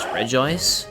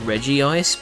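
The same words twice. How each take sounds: First: The name begins with Regi, not like Reggie. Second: The name begins like the name Reggie. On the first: This is the official pronunciation. "apparently the official pronunciation is Regice" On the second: This is the speaker's own habitual pronunciation. "I pronounce it Regice"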